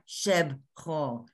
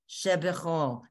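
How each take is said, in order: First: The word is said with two syllables. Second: The word is said with three syllables. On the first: The speaker calls it wrong. "not Shebchol" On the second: The speaker calls it right. "because it it sounds sweeter"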